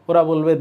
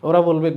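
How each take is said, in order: No difference in how they are said.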